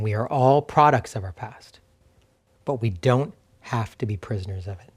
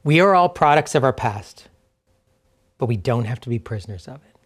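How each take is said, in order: First: Lower, deliberate restatement with a pause in the middle; slower, weighted repeat. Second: Said in the usual way. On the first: Real, not acted. Pastor saying a truth again for listeners, slow and deliberate. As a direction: say it slowly and let "don't" sink in, softening at the end. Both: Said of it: "Let me say that again".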